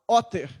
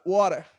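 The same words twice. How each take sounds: First: It is said in a British accent. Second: It is said in an American accent.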